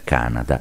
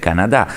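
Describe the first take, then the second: First: The stress is on the first syllable. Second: The stress is on the last syllable. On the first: This is the newer English-style usage. "L'accento sulla prima sillaba da te rilevato" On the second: This is the traditional French-style usage. "con l'accento sull'ultima sillaba, come si usa in Francia"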